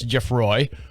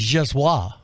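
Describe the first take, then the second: First: The name is said with an American pronunciation. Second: The name is said with a French pronunciation. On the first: The speaker calls it wrong. "like a stupid American" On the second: The speaker calls it right. "no, no, it's Jeswa"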